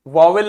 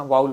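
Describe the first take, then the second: First: वावेल with a second v, "va-vel"; वावेल sounded with "-vel" at the end; wrong pronunciation. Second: वाउल as "vowel" with a gliding "ow", no second v; वाउल with the vowels run together; correct pronunciation. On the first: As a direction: say वावेल as two clear syllables, va-vel. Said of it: "वावेल नहीं होता है". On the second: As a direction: say वाउल smoothly, "vaa-ul". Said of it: "वाउल होता है". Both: Shown as a demonstration.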